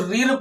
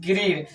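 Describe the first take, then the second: First: The name starts without a G sound. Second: The name starts with a clear G sound. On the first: The speaker calls it wrong. "बहुत से लोग इसको रीर पढ़ते हैं" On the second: The speaker calls it right. "इसका जी वाला silent नहीं होगा"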